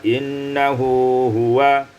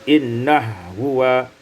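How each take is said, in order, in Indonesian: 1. Vokal di antara kedua bunyi h dipertahankan. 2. Kedua bunyi h menyatu tanpa vokal di antaranya.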